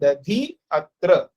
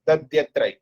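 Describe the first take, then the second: First: Two separate words, the i kept, with a pause. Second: One joined word, i turned into y, no pause. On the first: The words are kept apart without sandhi. "पहले हम लोग प्रयोग करते दधि अत्र, ये प्रयोग करके थोड़ा रुकते हैं" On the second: The words are combined by sandhi. "उसके बाद मिलाते हैं, उसके बाद संधि करते हैं"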